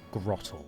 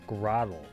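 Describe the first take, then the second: First: The middle t is crisp, British-style. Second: The middle t is flapped, American-style. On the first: "It doesn't work for us" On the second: "they were only thinking about American accents with Grotle"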